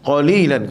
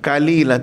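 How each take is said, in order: First: It begins with a deep back q sound. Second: It begins with a plain front k sound. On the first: The speaker calls it right. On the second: The speaker calls it wrong. "tak boleh lah. Kaf atas ka lah"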